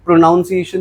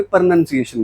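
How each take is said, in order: First: प्रोनाउंसिएशन with an "ow" in "noun"; wrong pronunciation. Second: प्रोनंसिएशन with "nun", no "ow"; correct pronunciation. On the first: Teacher warns of what is often taught, saying प्रोनाउंसिएशन with "noun". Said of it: "नहीं बोलते". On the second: Teacher gives the right form, प्रोनंसिएशन with "nun". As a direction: say प्रोनंसिएशन with a short second vowel, "nun". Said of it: "प्रोनंसिएशन बोलते हैं". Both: Shown as a demonstration.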